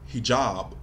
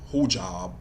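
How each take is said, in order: First: The first vowel sounds like 'ee'. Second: The first vowel sounds like 'oo'. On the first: This is the usual way to say it. The speaker calls it right. "I always heard it pronounced hijab" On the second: This is how the character says it. The speaker calls it wrong. "they had her pronounce it hujab"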